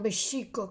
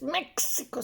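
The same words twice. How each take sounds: First: The stress is on the second syllable. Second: The stress is on the first syllable. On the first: The speaker calls it right. "las palabras siempre son graves en el náhuatl" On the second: The speaker calls it wrong. "nunca es drújula como México"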